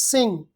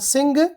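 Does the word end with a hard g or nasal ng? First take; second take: nasal ng; hard g. First: The word ends with a nasal ng sound. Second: The word ends with a hard g sound. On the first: The speaker calls it right. "but this is sing" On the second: The speaker calls it wrong. "this is not a sing"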